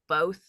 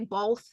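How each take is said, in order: First: The word is said without an L sound. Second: The word is said with an L sound. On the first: "instead of both, or however you're supposed to say it" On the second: "I still say both with an L"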